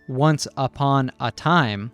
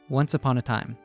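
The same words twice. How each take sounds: First: The words are said separately in a choppy way. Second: The words are linked smoothly into one flow. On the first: The speaker calls it wrong. "a robotic once upon a time" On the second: The speaker calls it right. "we get a fluid once upon a time"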